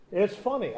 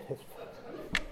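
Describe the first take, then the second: First: Said in the usual way. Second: Whispered, half-guilty aside; whispered admission. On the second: Real, not acted. Preacher confesses to the congregation in a whisper. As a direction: breathe it out as a sheepish secret. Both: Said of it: "I gotta admit".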